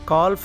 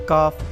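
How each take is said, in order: First: The L sound is pronounced in the word. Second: The L sound is silent in the word. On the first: The speaker calls it wrong. "एल की sound आपने नहीं देनी, यानी कि काल्फ नहीं पढ़ना" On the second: The speaker calls it right. "इसको काफ पढ़ना है"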